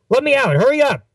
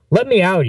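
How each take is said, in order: First: Very high, strained urgent demand; frantic plea. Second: Higher-pitched plea to get out; urgent plea. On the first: Passenger about to vomit begs to get out, frantic high plea. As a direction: shoot the pitch right up, desperate to get out. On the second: Sick passenger asks friends to let him out, urgent plea. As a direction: plead with a raised pitch. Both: Acted.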